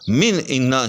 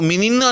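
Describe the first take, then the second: First: A glottal stop separates the two words. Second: The two words run together without a glottal stop. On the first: The speaker calls it right. "बल्कि हम इसको मिन इन्ना ही पढ़ेंगे" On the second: The speaker calls it wrong. "मिन इन्ना को मिनिन्ना नहीं पढ़ सकते"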